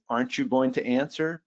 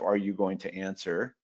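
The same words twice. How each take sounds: First: Higher-pitched, mildly emphatic "Aren't you going to answer?"; pressing question, pitched up on "Aren't you going to answer?". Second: Said in the usual way. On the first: Shown as a demonstration. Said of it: "quite pulled out the emphasis with". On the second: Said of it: "a straight up".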